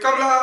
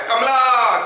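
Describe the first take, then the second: First: Imitated echo. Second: Drawn-out call, pitched higher; mock mountaintop call. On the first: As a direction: trail the name away like an echo. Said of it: "वापस आता है". (गूँज की नकल) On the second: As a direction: pretend to call across a valley. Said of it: "पहाड़ की चोटी पे अगर चिल्लाते हैं". (नकली पहाड़ी पुकार)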